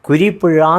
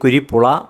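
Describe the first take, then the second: First: The last syllable starts with a zh sound. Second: The last syllable starts with an l sound. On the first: This is the proper Malayalam pronunciation. The speaker calls it right. "കുരിപ്പുഴ എന്ന് പറയാൻ ആർക്കും സാധ്യമല്ല" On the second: A foreigner cannot say the Malayalam letter. The speaker calls it wrong. "പറയാൻ അറിയാൻ വയ്യ"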